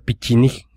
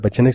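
First: The name is said in a Russian-style way. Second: The name is said in an Anglicized way. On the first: The speaker calls it right. "se pronuncia Pichinig, según los rusos" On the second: The speaker calls it wrong. "no se pronuncia Pecheneg"

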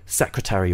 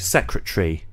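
First: The full -ary ending is pronounced, with the R. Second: The -ary ending is shortened, losing a syllable. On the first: "American people tend to say secretary" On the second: "The British way of doing things, really, with a word which ends in A-R-Y, is to shorten it"

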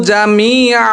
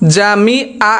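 Both takes have the same delivery.

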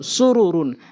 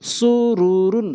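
First: The word is said quickly, at normal pace. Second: The word is said slowly, drawn out. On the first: The speaker calls it right. "দ্রুতটা উচ্চারণ করতে হবে" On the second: The speaker calls it wrong. "প্রথমে আমি স্লো বলছি"

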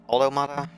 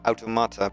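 First: It does not begin like Dutch 'auto'. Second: It begins like the Dutch word 'auto'. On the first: "It's Automata. Sounds stupid in my opinion" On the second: "I automatically say Automata because auto means car in Dutch"

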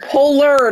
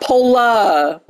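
First: The word ends with a clear 'r' sound. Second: The word ends in a vowel with no 'r' sound. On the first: The speaker calls it right. "Polar, not pola" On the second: The speaker calls it wrong. "not pola"

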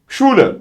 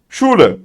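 First: The word begins with a single sh sound. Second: The same.

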